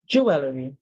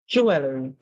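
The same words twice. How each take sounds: Both takes have the same delivery.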